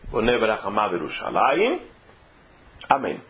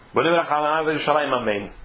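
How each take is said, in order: First: A short pause comes before amém. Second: Amém follows with no pause between. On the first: The speaker calls it right. "Faz uma pequena pausa. E aí fala o amém" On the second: The speaker calls it wrong. "não é para colar na brachá"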